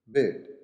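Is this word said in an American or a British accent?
British. It is said with a shorter British vowel. "bed in British"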